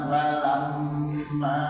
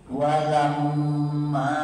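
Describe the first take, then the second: No difference in how they are said.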